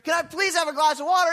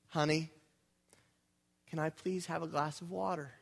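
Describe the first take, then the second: First: It is said angrily and demandingly. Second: It is said calmly and sweetly.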